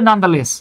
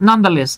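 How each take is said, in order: The two takes are said the same way.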